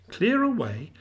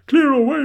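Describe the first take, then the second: First: "Clear away" echoed at normal volume, pitched up; "Clear away" tossed back unshouted, as if querying it; echoed question. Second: Loud, high, jovial order; hearty boss's rousing cry; Fezziwig. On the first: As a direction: repeat "Clear away" as a narrator's wondering question. Narrator echoes the order, musing. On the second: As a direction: shout it merrily across the room. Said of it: "cried old Fezziwig". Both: A narrator's reading.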